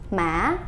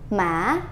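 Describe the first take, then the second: No difference in how they are said.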